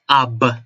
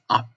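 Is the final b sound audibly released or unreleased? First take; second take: released; unreleased. First: The final b sound is audibly released. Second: The lips close without releasing the final sound. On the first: The speaker calls it wrong. "you don't pronounce it as ab" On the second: The speaker calls it right. "you pronounce it as up. The B word just stopped"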